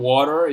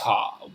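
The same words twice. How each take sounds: First: It is said with an American accent. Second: It is said with a British accent.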